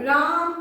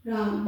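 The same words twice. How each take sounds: First: राम called out a little louder, the vowel stretched; a mild demo call, राम with a lengthened आ; calling from afar. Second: Said in the usual way. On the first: Shown as a demonstration. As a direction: call राम to someone far off. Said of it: "दूर से पुकारने में ना थोड़ा स्वर बढ़ाऊंगी". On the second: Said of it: "तो मैं कैसे बोलूँगी?".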